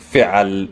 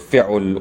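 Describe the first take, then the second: First: An a vowel follows the ain sound. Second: A u vowel follows the ain sound. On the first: "I'm not saying fi'al" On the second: "or fi'ul"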